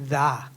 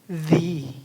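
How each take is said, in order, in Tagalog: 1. Binibigkas ito na may maikli at mahinang patinig. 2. Binibigkas ito na may mahabang patinig na 'ee'. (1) "ang pronounce niya ay hindi the" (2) "Pag consonant, yun yung the"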